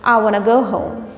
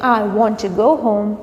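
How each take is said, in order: First: Want to is reduced to wanna. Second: Want to is said fully as two words. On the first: "you can say" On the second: "Instead of saying"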